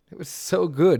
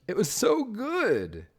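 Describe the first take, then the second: First: Louder and higher, punched; emphatic praise. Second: Slow, high, drawn-out praise; gushing. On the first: Praising Mineral's park again, louder. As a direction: hit it hard, much louder. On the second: Praising Mineral's park, slow and gushing. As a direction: stretch it out, higher, awed. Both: Real, not acted.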